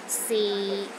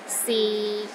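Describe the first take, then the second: First: The pitch is low and steady. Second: The same.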